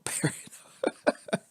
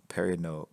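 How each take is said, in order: First: "Perino" drawn out slowly through a laugh. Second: Said in the usual way. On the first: Shown as a demonstration. Repeating a name from chat, laughing and drawn out. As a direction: stretch "Perino" while laughing.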